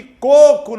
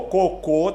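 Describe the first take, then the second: First: "coco" stressed on the first syllable, CO-co. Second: "Cocô" stressed on the final syllable, co-CÔ; stress on last syllable. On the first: ("coco" com a primeira sílaba tônica) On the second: ("Cocô" com a última sílaba tônica) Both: Shown as a demonstration. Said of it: "cocô é uma palavra oxítona".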